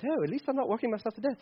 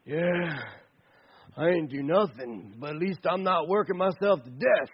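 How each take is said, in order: First: Soft, quick put-on British accent. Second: Lightly voiced lazy slacker; lazy guy's talk. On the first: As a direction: play it lightly as a quick British aside. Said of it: "maybe you talk like this with a British accent". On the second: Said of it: "that's the way you have to talk like that".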